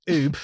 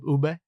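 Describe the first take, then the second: First: It ends on the b with no vowel. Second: It ends with a sounded vowel after b. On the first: The speaker calls it wrong. "Please do not say oob" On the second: The speaker calls it right. "with the air pronounced at the end"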